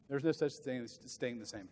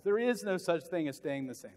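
First: "no" stressed, softer and lower; quiet repeat. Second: "is" leaned on, full voice; stress on is. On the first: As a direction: drop the voice and let "no" land. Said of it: "repeated softer". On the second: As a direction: press the word "is". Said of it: "same line said twice". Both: Shown as a demonstration.

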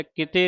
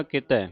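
First: ਕਿਤੇ with a closed e ending; the wrong way, ਕਿਤੇ with e; ਕਿਤੇ closed e, not ai; wrong pronunciation. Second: ਕਿਤੈ with an open ai ending; the right way, ਕਿਤੈ with ai; ਕਿਤੈ broad ai, not e; correct pronunciation. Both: Shown as a demonstration. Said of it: "ਕਿਤੇ ਨਹੀਂ ਪੜ੍ਹਨਾ".

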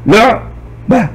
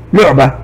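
First: "لعبة" slowly in two beats, "لع" then "بة"; split into syllables. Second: Said in the usual way. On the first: Shown as a demonstration. Teacher showing how the silent letter joins the one before, "لعبة" split as "لع - بة". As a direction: break "لعبة" after the silent ع, with a clear pause. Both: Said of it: "الحرف الساكن ينطق مع الحرف الذي قبله".

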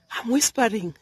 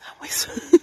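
First: Said in the usual way. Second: A real breathy whisper, no voice; whispering so the bee is not disturbed. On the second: Real, not acted. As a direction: drop to a true whisper.

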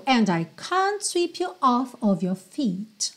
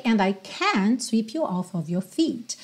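First: British "can't" with a long open ah; British accent. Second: American "can't", vowel as in cat; American accent. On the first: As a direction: say the line with British kahnt for "can't". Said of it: "Mas no inglês britânico". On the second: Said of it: "no inglês americano, tradicionalmente seria can't". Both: Shown as a demonstration.

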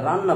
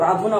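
First: রান্না with a doubled n, "ran-na"; everyday pronunciation. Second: রাধনা in three syllables, "radh-o-na"; unused pronunciation. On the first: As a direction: merge into a long n in রান্না. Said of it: "রান্না বলি". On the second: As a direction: sound out the ধ with a vowel before না in রাধনা. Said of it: "আমরা রাধনা বলি না". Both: Shown as a demonstration.

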